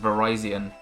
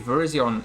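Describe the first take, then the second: First: The name is said the official, intended way. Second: The name is said the familiar, commonly used way. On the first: The speaker calls it right. "is pronounced" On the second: The speaker calls it wrong.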